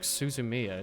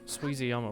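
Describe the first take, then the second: First: The name ends with the sounds 'zumiya'. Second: The name ends with the sounds 'zuyama'. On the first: The speaker calls it right. "It's actually like Suzumiya" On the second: The speaker calls it wrong. "I always say that Suizuyama"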